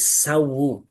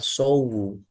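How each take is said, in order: First: The first vowel sounds like an open 'a'. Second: The first vowel sounds like a rounded 'o'. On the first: The speaker calls it right. "tapi sawu" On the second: The speaker calls it wrong. "itu penyebutannya agak kurang pas sedikit. Yang betul bukan sowu"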